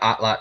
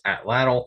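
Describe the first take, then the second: First: The final tl sound is silent. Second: The final tl sound is pronounced. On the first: The speaker calls it right. "is the correct pronunciation" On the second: The speaker calls it wrong. "most of the time you'll hear it pr- pronounced atlatl"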